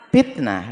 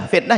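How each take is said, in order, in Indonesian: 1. Kata itu diucapkan dengan pelafalan Sunda. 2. Kata itu diucapkan dengan pelafalan baku.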